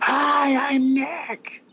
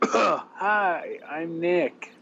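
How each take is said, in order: First: It is said more loudly. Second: It is said at a normal, quieter volume.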